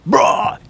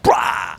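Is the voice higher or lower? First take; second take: lower; higher. First: It is said in a lower voice. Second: It is said in a higher voice.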